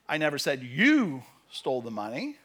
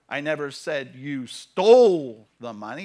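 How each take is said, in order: First: The word "you" carries the main stress. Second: The word "stole" carries the main stress. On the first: Someone else stole it. "Somebody else stole it" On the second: It was borrowed, not stolen. "You borrowed it"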